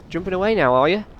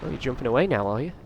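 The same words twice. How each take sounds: First: "Jumping away now" pitched higher, mocking the giant; taunting. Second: Said in the usual way. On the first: Gamer jeering at the giant for jumping away, higher taunt. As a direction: repeat it as a sing-song jeer, up high. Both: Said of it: "don't talk smack to the giant guy".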